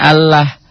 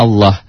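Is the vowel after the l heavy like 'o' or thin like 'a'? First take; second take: thin a; heavy o. First: The vowel after the l is a thin 'a'. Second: The vowel after the l is a heavy 'o'. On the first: The speaker calls it wrong. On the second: The speaker calls it right. "Allah tebal itu seakan-akan ada o"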